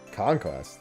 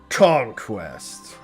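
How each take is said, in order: First: It is said in an ordinary speaking voice. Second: It is said in a dramatic announcer voice.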